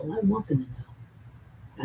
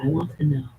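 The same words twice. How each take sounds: First: Want stretched and drawn out, slow; slow take that hits want; stress on want. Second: Them pushed out, quicker take; stress on them. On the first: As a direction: lean hard on the word want. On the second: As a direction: lean on the word them. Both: Real, not acted. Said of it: "repeated with new stress".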